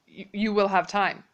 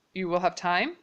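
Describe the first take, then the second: First: Said in the usual way. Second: "time" rises at the end as a question; rising question. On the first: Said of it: "then I am just saying". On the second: Shown as a demonstration. Teacher showing the English question tune, voice going up on "time". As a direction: lift your voice up on "time". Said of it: "in English, we would make our voices go up".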